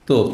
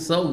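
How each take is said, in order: First: The word begins with a hard t sound. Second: The word begins with a soft th sound. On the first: The speaker calls it wrong. "India পাকিস্তানের লোকদেরকে শুনবেন... এরা বলবে যে তোপ" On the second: The speaker calls it right. "আরবরা তো শুদ্ধ সায়ের উচ্চারণ জানে"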